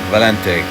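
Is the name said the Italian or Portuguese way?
Italian. It is said with an Italian pronunciation. "the Italian, which is more like Valente"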